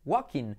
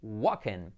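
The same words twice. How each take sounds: First: "walking" as WAH-keen, no l; paso intermedio. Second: "Walking" low, as WAH-ken; short e ending in "Walking", no l; pronunciación correcta. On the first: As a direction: drop the l in "walking", keep ee. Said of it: "quitamos la L". ("walking" sin ele, «guakin») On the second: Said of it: "la I como una E". ("Walking" grave, «guaken») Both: Shown as a demonstration.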